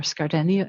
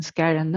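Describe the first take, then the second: First: Skardeni, with a D and an ee ending; common alternative pronunciation. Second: Skarenne, said without a D sound; own pronunciation of surname. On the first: Speaker showing how the surname is often said, alternative pronunciation Skardeni. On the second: Speaker introducing herself to the meeting, own pronunciation of Skarenne. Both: Shown as a demonstration. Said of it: "as it often, um, is pronounced".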